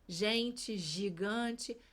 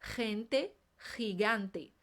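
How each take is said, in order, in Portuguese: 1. As palavras são pronunciadas do jeito português. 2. As palavras são pronunciadas do jeito espanhol. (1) "Assim como acontece em português" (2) "Em espanhol"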